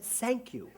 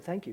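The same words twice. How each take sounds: First: Put-on quoted German-accented thanks, higher pitched; German accent, "sank" for "thank"; affected German accent. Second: Said in the usual way. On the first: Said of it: "take on an affectation of their accent". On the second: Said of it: "You said, 'Thank you.'".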